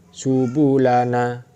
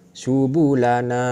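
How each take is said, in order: Both takes have the same delivery.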